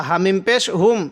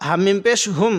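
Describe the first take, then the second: No difference in how they are said.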